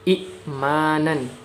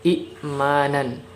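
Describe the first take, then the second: The two takes are said the same way.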